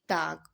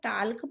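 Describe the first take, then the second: First: The L sound is silent in the word. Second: The L sound is pronounced in the word. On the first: The speaker calls it right. "इसमें एल letter silent होता है" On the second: The speaker calls it wrong. "बिल्कुल नहीं, टाल्क नहीं पढ़ेंगे"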